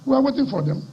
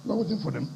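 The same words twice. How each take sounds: First: Firm warning. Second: Softer, dropped, low-key threat; quiet menace. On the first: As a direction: say it as a challenge, strong. Warning rival repeated twice. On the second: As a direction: let the repeat sink in softly. Warning repeated, quieter. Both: Real, not acted.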